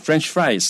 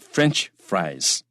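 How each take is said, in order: First: The stress is on the second word. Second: The stress is on the first word. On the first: The speaker calls it wrong. "不要念 French fries" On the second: The speaker calls it right. "重音在前面啊"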